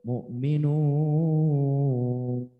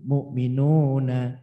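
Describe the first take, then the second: First: The word ends on n without a final vowel. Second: The word ends with a short vowel after n. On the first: The reader stops at this word. "kalau diwakaf akhir-akhir mu'minun" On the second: The reading continues without stopping. "Tidak cukup mu'minuna"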